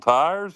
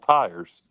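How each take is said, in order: First: TIRES in one of two accents, voice lifting; Southern or non-Southern tires. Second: TIRES in the other accent, voice falling; Southern or non-Southern tires. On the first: Host offers callers two ways to say tires, demonstrating. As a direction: say TIRES as the first option. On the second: Host offers callers a choice of tires, demonstrating. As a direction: say TIRES as the second option. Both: Shown as a demonstration. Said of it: "I can do either".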